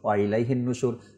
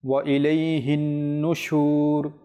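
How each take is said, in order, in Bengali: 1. নাসিক্য 'ন' এর আওয়াজ ছোট করে পড়া হয়। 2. নাসিক্য 'ন' এর আওয়াজ টেনে পড়া হয়। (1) "নরমালি পড়ে গেলেই তো হয়" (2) "গুন্না হবে, গুন্না করবেন"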